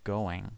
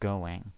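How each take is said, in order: The two takes are said the same way.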